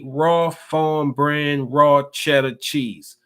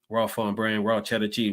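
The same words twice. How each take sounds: First: The phrase is read at an ordinary reading pace. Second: The phrase is rattled off quickly like a tongue twister.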